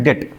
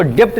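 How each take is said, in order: First: डेट said as "det", no b; silent b. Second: डेप्ट said with a p-like b before the t; wrong way, b sounded. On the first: Teacher giving the correct reading of debt, b silent. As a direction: say डेट straight from e to t. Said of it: "इसको पढ़ते हैं डेट". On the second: Teacher showing the wrong reading of debt, b pronounced. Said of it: "इसको डेप्ट नहीं पढ़ते हैं". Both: Shown as a demonstration.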